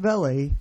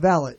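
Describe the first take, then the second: First: The word is said the French way. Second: The word is said the plain English way. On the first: The speaker calls it wrong. "I ain't one of those froggy guys" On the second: The speaker calls it right. "valet, not valet"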